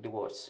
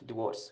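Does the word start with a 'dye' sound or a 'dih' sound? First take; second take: dih; dih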